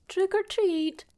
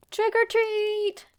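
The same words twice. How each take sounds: First: Lightly voiced cheerful child's call, higher; kids' trick or treat. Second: High, loud, slow excited shout; excited kids' scream. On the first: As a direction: chirp it like a small trick-or-treater. Narrator voices kids' reminded greeting. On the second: A narrator's reading. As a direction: scream it with the kids' delight at the open door. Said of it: "they both screamed with excitement".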